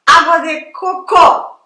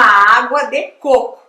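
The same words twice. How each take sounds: First: Slow, loud phrase with "cocô" as co-CÔ; wrong last-syllable stress. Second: Careful "coco" as CÔ-co; stress on first syllable. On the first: American learner getting it wrong, last-syllable stress. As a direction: drag out "cocô", punching the final CÔ. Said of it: "E aí ela falava". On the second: Teacher coaching American to order, first-syllable stress. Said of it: "acento na primeira sílaba". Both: Retold or imitated.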